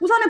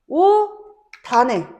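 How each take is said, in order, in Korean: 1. 연음되는 자음은 s 소리야. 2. 연음되는 자음은 d 소리야. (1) "연음만 되면 오산해가 돼" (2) "뭐라고 발음해?"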